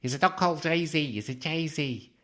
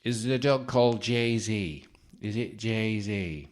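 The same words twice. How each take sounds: First: Higher, louder mock Liverpool psychic; a second go, a proper Liverpool accent. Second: Slow, off-target mock accent, not Liverpool; a failed try at a Liverpool accent; a botched Liverpool accent, slow and put on; wrong accent for the psychic. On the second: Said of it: "No, that's the wrong accent".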